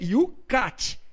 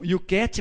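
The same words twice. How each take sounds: First: The 'cat' part sounds like the start of 'catechism'. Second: The 'cat' part sounds like English 'cat'. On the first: The speaker calls it right. "o correto é Yucat, porque até no inglês a palavra catecismo é catecismo" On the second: The speaker calls it wrong. "Alguns pronunciam Yucat, mas não é"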